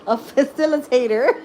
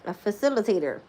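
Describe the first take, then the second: First: The word facilitator said high and loud through giggles; laughing. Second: Said in the usual way. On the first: Real, not acted. To viewers, finally saying facilitator while laughing.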